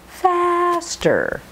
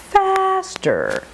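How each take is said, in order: No difference in how they are said.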